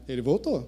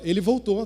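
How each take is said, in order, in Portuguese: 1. É dito com um tom infeliz e de desaprovação. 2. É dito com um tom feliz e alegre. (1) "Ou pode ter sido diferente" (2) "de um jeito, né, alegre, feliz por esse retorno"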